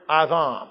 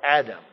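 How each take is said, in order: First: The word is pronounced the Hebrew way. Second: The word is pronounced the usual English way. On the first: "it is a Hebrew word" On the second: "as we would say"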